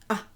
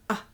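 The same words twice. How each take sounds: First: The vowel is short and open. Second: The vowel is short and open.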